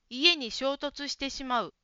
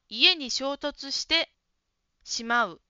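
First: The phrase flows without any stop inside. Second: The phrase is broken with a stop inside. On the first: The speaker calls it right. "衝突してしまうは止めずに言った方がいいですね" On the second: The speaker calls it wrong. "ちょっと自然じゃないですね"

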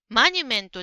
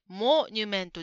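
First: The first syllable is said with an 'a' vowel. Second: The first syllable is said with an 'o' vowel. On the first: The speaker calls it wrong. "マニュメントではなくて" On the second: The speaker calls it right. "モニュメントですね"

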